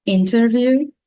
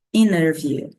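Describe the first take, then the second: First: INTERVIEW with a clear T, pitched higher; first form, "interview" with T sounded; T pronounced. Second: INNER VIEW with no T, falling tune; second form, "inner view" without T; T dropped. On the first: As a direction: lift INTERVIEW and keep its T. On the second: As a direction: let INTERVIEW fall as "inner view". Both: Shown as a demonstration. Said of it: "nós temos essas duas formas".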